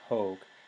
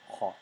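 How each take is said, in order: First: The vowel is a long O. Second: The vowel is a short aw sound. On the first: It is the ablative singular form. "H O C with a macron" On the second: It is the nominative or accusative neuter singular form. "which is a short O in Latin, which is like an aw sound"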